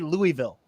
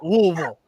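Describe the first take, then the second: First: The name is said clearly, syllable by syllable. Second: The name is slurred, sounding like gagging. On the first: This is how everyone else says it. The speaker calls it right. "It has to be Louisville. That's how the world pronounces it" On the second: This is how the locals say it. The speaker calls it wrong. "You are no longer allowed to pronounce it Louisville. Like you're getting sick over your own name"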